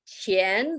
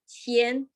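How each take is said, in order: First: The pitch rises from middle to high. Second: The pitch stays high and level. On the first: It means money. "the second tone" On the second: It means humble. "the first tone"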